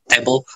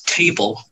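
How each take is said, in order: First: It is said flat, without melody. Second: It is said with rhythm and melody.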